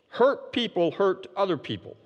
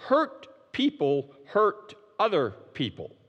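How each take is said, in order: First: Said in the usual way. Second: Slow, with a pause after nearly every word; spaced-out maxim, letting each word of "Hurt people hurt other people" land; word-by-word emphasis. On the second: Real, not acted. Key maxim, first spaced out.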